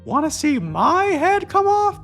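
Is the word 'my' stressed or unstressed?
stressed. The word 'my' is stressed.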